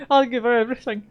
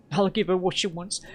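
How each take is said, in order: First: Much higher, louder, desperate cry; breaking loud plea. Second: Said in the usual way. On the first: Acted. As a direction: cry it out as you cave in.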